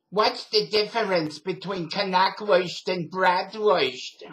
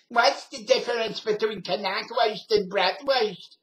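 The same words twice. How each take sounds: First: Loud, slow New York lady imitation; New York accent. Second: High, loud, slow New York lady voice; New York accent. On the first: Old New York lady at deli line, loud New York accent. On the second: Retold or imitated. Retelling the lady's question, loud New York accent. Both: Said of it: "had never heard a New York accent".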